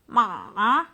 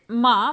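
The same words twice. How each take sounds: First: The syllable is said in a dipping third tone. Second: The syllable is said in a light neutral tone. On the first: It means to sell. "we have this third tone" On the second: It marks a question. "this is first like neutral tone"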